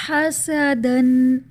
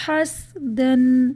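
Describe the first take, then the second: First: Very slow حسدن with a clear zabar on the seen; correct recitation. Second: Slow حسدن with a silent seen, as has-dan; wrong reading. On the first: Teacher recites the correct word to students, slow and loud. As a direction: recite حسدن as ha-sa-dan, drawn out. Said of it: "جیسے". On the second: Teacher demonstrates the mistake to students, slowly. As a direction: clip the seen of حسدن to a sukun. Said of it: "اور اگر اس کو غلط پڑھا جائے". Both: Shown as a demonstration.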